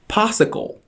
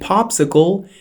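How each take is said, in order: First: The middle p sound is dropped. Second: The middle p sound is clearly pronounced. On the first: The speaker calls it wrong. "he says possicle" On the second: The speaker calls it right. "Instead of saying popsicle"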